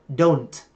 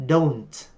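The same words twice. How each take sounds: The two takes are said the same way.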